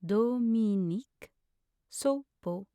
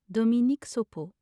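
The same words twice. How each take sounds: First: Slow, each syllable set apart. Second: Said in the usual way. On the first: Shown as a demonstration. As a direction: sound the name out in pieces. Pronunciation guide, broken-down take.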